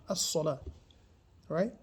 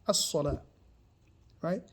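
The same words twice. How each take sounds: The two takes are said the same way.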